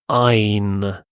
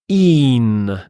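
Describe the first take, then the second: First: The syllable has an 'eye' vowel. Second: The syllable has a long 'ee' vowel. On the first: The speaker calls it wrong. "not ein" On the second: The speaker calls it right. "it's een"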